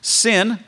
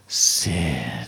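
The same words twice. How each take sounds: First: The word is said in a plain, neutral way. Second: The word is said with disgust, like a curse.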